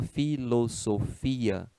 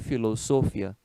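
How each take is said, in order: First: The i is stressed and forms its own syllable. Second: The i is unstressed and glides into the a. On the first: The speaker calls it right. "Se fala" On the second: The speaker calls it wrong. "seria um ditongo e a pronúncia seria"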